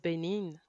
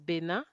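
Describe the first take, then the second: First: The name is said with English pronunciation. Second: The name is said with French pronunciation. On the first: "but in English is Benin" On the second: "if you want to say it in French"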